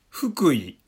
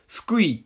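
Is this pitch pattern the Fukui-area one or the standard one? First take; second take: standard; Fukui-area. First: It uses the standard Kanto pitch pattern. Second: It uses the local Fukui-area pitch pattern. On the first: "ニュースキャスターだったり、正しい日本語を使う方だと" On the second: "近くにいる人だと、まあ、ゆかりのある方だと"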